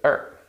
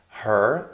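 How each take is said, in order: First: The word starts straight on the vowel. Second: The word begins with a clear H sound. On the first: "so we just say er" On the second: "Her is a function word"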